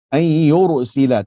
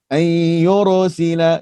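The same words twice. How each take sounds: First: The r is thick and not rolled. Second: The r is rolled with a long trill. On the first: The speaker calls it right. "tapi jangan melantunkan ra" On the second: The speaker calls it wrong. "Contoh dia macam macam ni"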